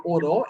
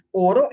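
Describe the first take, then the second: First: "oró" with the final Ó stressed and falling; stress on last syllable. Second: "Oro" stressed on the opening O; stress on first syllable. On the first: Teacher explaining the verb to students, stressing the last syllable of "oró". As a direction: hold back the start and land on the end of "oró". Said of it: "oró es una acción". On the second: Teacher explaining the metal to students, stressing the first syllable of "Oro". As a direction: begin "Oro" strong, then drop to the second syllable. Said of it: "Oro es un metal". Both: Shown as a demonstration.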